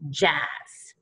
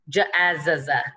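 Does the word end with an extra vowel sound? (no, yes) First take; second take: no; yes. First: The word ends cleanly on a single z sound. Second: The word ends with an extra vowel after z. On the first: The speaker calls it right. "It's just jazz" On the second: The speaker calls it wrong. "It's not j-a-z-z-a"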